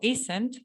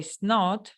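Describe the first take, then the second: First: The two words are joined into one contracted word. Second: The two words are said separately in full. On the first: "de forma contraída" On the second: "dejarla sin contraer"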